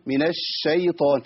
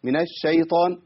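First: الشيطان with a long, hissing doubled sh; spreading sheen. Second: الشيطان with a short, light sh; weak sheen. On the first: Teacher contrasts the correct way, spreading sheen in الشيطان. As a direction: hold the sh in الشيطان slowly. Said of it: "انتشار الصوت". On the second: Teacher contrasts the error, short sheen in الشيطان. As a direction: pass quickly over the sh in الشيطان. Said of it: "سمعتوا في فرق؟". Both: Shown as a demonstration.

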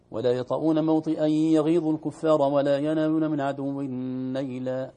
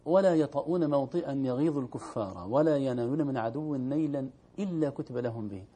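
First: Loud recitation, stopping at نيلا; stopping after نيلا so the verse sounds negated; wrong pause after نيلا. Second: نيلا run straight into إلا without a stop; joined recitation. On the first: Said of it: "بعض الناس يقرؤون". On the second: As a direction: keep reading through to إلا كتب لهم به. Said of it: "يقف". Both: Shown as a demonstration.

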